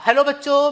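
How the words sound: It is said in his natural voice.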